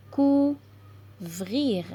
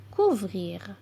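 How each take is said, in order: First: "Couvrir" as COU ... VRIR, with a pause between; syllable by syllable. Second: Said in the usual way. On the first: Shown as a demonstration. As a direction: sound out "Couvrir" slowly in two parts, cou, vrir. (« Couvrir » lu syllabe par syllabe, cou – vrir) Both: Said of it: "lire des mots avec les syllabes complexes".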